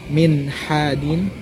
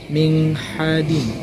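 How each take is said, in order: First: The n is pronounced clearly before the h. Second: The n is nasalized and blended into the h. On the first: This way is easier to say. The speaker calls it right. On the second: This way is harder to say. The speaker calls it wrong.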